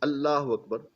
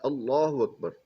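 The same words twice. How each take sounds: First: The L in Allah is light and thin. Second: The L in Allah is heavy and full. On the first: The speaker calls it wrong. "इसमें जलालत को पुर नहीं करते" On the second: The speaker calls it right. "इसमें जलालत को पुर करेंगे"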